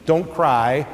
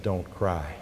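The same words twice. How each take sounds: First: Casual. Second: Soft, hushed "Don't cry", gently spoken low; with compassion, as if to a weeping mother; tender and low. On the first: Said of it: "Jesus said to her casually". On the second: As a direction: comfort a grieving mother quietly. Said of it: "when he said". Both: Retold or imitated.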